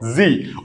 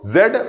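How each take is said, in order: First: The letter is said as zee, American style. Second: The letter is said as zed, British style. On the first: "US वाली English में या American English में इसको" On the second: "England वाली या UK वाली English में इसको"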